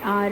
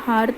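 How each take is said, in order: First: The word starts with a vowel, no h. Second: The word starts with an audible h sound. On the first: The speaker calls it right. "आप क्या बोलेंगे? आर and ऑनर" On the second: The speaker calls it wrong. "तो जब आपने H का use ही नहीं करा तो आप हॉनर या हार तो बोलेंगे नहीं"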